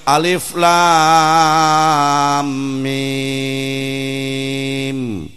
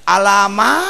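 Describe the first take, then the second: First: Each letter name is said separately and fully. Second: The letter names are blended into one short word. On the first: The speaker calls it right. "batur ge maca Quran alif lam mim" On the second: The speaker calls it wrong. "dibaca main teh nyaho ieu"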